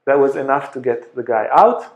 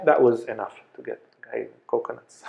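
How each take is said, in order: First: Laughs at own slip, then corrects it; laughing correction. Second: Said in the usual way. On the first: Real, not acted. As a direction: chuckle and fix the mistake.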